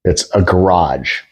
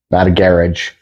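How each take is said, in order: First: American "garage": gə-RAHZH, slowly. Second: "garage" stressed on the first syllable like carriage, GARR-idge; mock British "garage", GARR-idge with a hard j. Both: Shown as a demonstration.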